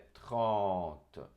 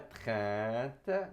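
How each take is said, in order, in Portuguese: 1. A vogal nasal é dita com a boca aberta na vertical. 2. A vogal nasal é dita com os lábios sorrindo, esticados. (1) "é trente ... aqui é vertical" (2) "não é trente, não é sorrindo"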